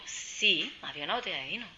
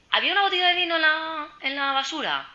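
First: Said in the usual way. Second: High, loud, scandalised mock question; acted shocked question. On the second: Moroccan colleague asking about the rubbish, high loud mock shock. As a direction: imitate a colleague's alarm, pitched right up.

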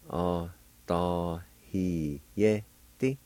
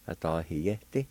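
First: OSTAYIDISTE slowly as "ah, tah, hee, yeh, teh"; syllable by syllable. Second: Said in the usual way. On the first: Shown as a demonstration. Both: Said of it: "is pronounced like this".

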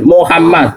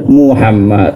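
First: Muhammad opened with MO instead of MU; mistaken everyday pronunciation. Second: Muhammad opened with a clear MU, pitched low; spelled-out correct pronunciation. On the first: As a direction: say Muhammad as "Mohammad", first vowel an O. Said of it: "Mim dhammah mu ya ora ono". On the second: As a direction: say Muhammad with U in the first syllable. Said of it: "Mim dhammah mu berarti". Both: Shown as a demonstration.

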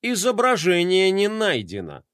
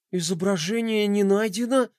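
First: Said in the usual way. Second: A higher, gasped, disbelieving question; gasping in disbelief. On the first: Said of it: "картинка-заглушка «Изображение не найдено»". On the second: Acted. Roma sees the missing emblem, gasping in disbelief. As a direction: gasp it as if you can't believe it. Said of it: "ахнул Рома".

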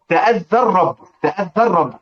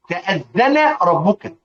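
First: تأذى الرب with the nun swallowed into a doubled r; assimilated nun. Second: Said in the usual way. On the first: Shown as a demonstration. Teacher demonstrates idgham to students, nun merged into r. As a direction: run it together as "ta'adhdhar-rabb". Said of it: "هذا إضغام". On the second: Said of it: "تضغم إذا تحرك ما قبلها".

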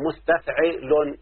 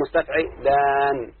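First: Said in the usual way. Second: مستفعلان with the final aan held long; added long ending. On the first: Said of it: "يعني عندك مثلا أهو". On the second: Shown as a demonstration. Teacher giving students an example of the added letter, lengthened ending. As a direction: stretch the last vowel of مستفعلان before closing on n. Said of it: "التسبيغ اللي هو".

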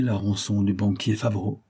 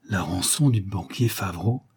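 First: Said in the usual way. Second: Understated stunned echo; growing astonishment. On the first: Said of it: "Judex reprit". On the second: A narrator's reading. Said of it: "de plus en plus étonné".

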